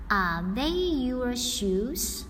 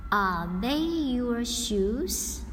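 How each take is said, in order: Both takes have the same delivery.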